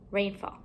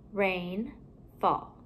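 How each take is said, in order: First: Said in the usual way. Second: RAIN rising, a pause, then FALL lower; two separate parts. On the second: Shown as a demonstration. Teacher building compound words for pupils, halves kept apart. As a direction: leave a gap between RAIN and FALL.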